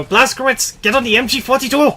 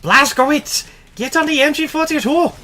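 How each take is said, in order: First: High, loud yelled battle order; shouting soldier. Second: Put-on German accent. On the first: Retold or imitated. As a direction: bellow the command at a soldier. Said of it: "how loud the guy is about it". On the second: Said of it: "I do not know how to do a German accent".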